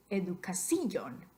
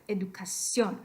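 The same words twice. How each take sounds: First: "educación" as e-du-ca-SÍ-on, I stressed. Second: "educación" with stress on CIÓN; stress on final O. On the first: Teacher showing a misplaced accent mark, stressed I in educación. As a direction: break the diphthong in "educación" and hit the I. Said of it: "put the accent over the I". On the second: Teacher saying what we want, educación stressed on CIÓN. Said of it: "el acento escrito sobre O". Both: Shown as a demonstration.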